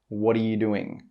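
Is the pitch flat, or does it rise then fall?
flat. The pitch stays fairly flat throughout. The speaker calls it wrong. "He doesn't say"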